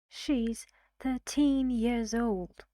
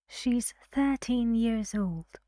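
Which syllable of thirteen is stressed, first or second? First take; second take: second; first. First: The stress is on the second syllable of thirteen. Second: The stress is on the first syllable of thirteen. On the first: The speaker calls it wrong. "isn't it better for this stressed syllable to move?" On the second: The speaker calls it right. "this is better"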